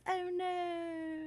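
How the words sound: It is said dramatically, with strong emotion.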